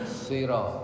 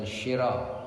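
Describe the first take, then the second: First: The first consonant is a plain unrounded s. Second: The first consonant is rounded and sh-like. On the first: The speaker calls it right. "tapi sira ... Mulutnya enggak mencucu" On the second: The speaker calls it wrong. "Jadi bukan syira"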